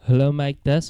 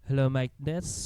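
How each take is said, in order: First: The recording is louder and fuller. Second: The recording is quieter and duller.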